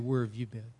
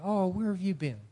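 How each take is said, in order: First: It sounds annoyed and accusing. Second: It sounds warm and glad to see someone.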